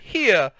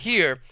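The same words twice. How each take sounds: First: It is said in a Southern drawl. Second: It is said in a plain, neutral accent. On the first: "Mama started talking Southern style" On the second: "Instead of saying here"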